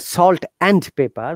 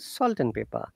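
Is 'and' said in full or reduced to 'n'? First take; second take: full; reduced. First: The word 'and' is said in full. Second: The word 'and' is reduced to 'n'. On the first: The speaker calls it wrong. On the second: The speaker calls it right.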